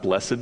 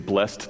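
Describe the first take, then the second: First: The word is said in an old biblical way. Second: The word is said in a plain modern way. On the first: The speaker calls it wrong. "not blessed, because it seems very King James" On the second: The speaker calls it right. "I told Joseph I was going to say blessed"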